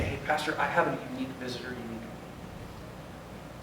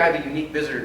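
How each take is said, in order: First: Discreet code word. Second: Said in the usual way. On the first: Retold or imitated. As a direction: murmur it like a secret signal. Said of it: "He'd say". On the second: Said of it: "Now, if you hear".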